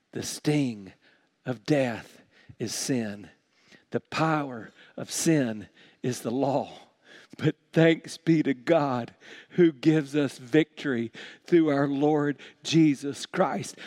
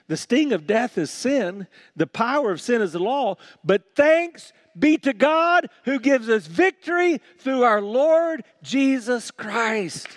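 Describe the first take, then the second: First: Weighty reading with pauses between phrases; deliberate scripture reading. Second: High, ringing pulpit proclamation; triumphant preacher's reading; rousing scripture reading. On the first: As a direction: let each phrase sink in. Rereads the verse for its meaning. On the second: First, rousing reading of the verse. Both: Real, not acted.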